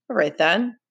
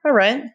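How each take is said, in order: First: Restrained threat, slight rise; menacing. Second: Higher, forceful rising challenge; a loaded threat, pushed harder; menacing. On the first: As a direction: say it with loaded meaning. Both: A narrator's reading. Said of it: "in tones of deep meaning and menace".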